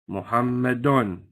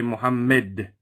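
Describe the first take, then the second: First: The word ends with the -un sound. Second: The word ends without the -un sound. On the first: "If you have, for instance" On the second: "you stop and say Muhammad. You drop the whole tanween"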